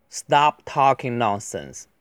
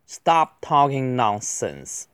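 First: Said in the usual way. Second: Slow, clearly articulated words; deliberate teacher's pace; slow model reading. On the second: Shown as a demonstration. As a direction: read it out carefully for learners. Slow model reading, then faster repeat.

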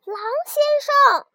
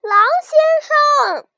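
First: Higher call down the cliff; the lamb calling down after the fallen wolf. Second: Much higher, louder, slow 狼先生; the lamb calling again, louder and longer, down the cliff; loud drawn-out call. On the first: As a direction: call 狼先生 up high. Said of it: "就喊了一声". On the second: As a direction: stretch out 狼先生 as a long loud call into the distance. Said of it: "他又喊了一声". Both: A narrator's reading.

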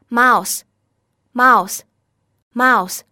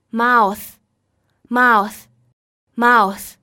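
First: Slow, louder model "mouse", each ending in a simple voiceless s; 清辅音s领读. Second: Slow, louder model "mouth", each ending in a bitten-tongue th; 咬舌音领读. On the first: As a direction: lead the class in "mouse" three times, spaced out, final s without biting the tongue. (大声慢速领读mouse，词尾发清辅音s) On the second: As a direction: lead the class in "mouth" three times, spaced out, tongue between teeth at the end. (大声慢速领读mouth，词尾咬舌) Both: Shown as a demonstration. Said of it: "请跟老师来读一下这两个单词".

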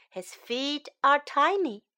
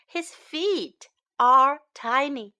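First: Said in the usual way. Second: "His feet are tiny" word by word, with gaps. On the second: Shown as a demonstration. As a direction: separate each word for learners. Slow model take, then faster repeat.

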